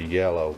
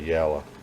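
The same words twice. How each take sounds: First: It is said in a standard, non-Southern accent. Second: It is said in a Southern US accent. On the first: "we don't say yellow" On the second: "we say yellow. We do that here in the South"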